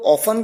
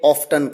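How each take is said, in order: First: The word is said without a t sound. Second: The word is said with a t sound. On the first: This is how American speakers usually say it. "इसे कई लोग ऑफन कहते हैं" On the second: This is how British speakers usually say it. "कई ऑफ्टन कहते हैं"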